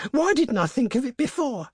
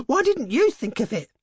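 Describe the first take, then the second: First: Very high, frantic self-reproach, "Why didn't I"; hysterical. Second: High, frantic reproach with stress on "you"; hysterical. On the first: Wife blaming herself for the late idea, hysterically. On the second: Wife blaming her husband, hysterically stressing "you". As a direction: turn it on him, hitting "you" hard and high. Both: A narrator's reading. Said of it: "she said hysterically".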